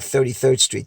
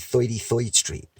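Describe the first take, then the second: First: The vowels in 'thirty-third' sound plain. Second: The vowels in 'thirty-third' sound like 'oi'. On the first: "instead of saying" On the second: "they'll say"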